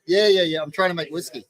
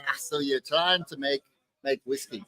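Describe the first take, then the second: First: Said in the usual way. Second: Put-on half-hearted, lower Scottish accent. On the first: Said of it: "And I go". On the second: Retelling the Scotsman's question to the distiller, in a rough Scottish accent. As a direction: try a Scotsman's accent, not very convincingly. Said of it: "Is that your Scottish accent?".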